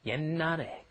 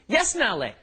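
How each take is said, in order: First: The first syllable ends with an n sound. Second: The first syllable ends with an s sound. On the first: The speaker calls it right. "you're just pronouncing an N" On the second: The speaker calls it wrong. "You see that sh at the bottom ... you're thinking, ... No, no, that's not how it's pronounced"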